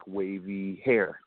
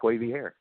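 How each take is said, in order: First: Very slow, dreamy stretched words; savoring the memory of her hair, drawn out slowly. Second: Said in the usual way. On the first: Real, not acted. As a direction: linger on "wavy hair" slowly as if picturing her.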